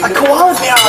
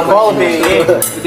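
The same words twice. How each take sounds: First: Higher, excited American accent; hammed-up American accent. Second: Slow Australian accent demo; drawn-out Aussie vowels. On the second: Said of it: "Australian accent, mate". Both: Shown as a demonstration.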